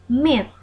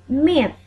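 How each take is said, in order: Both takes have the same delivery.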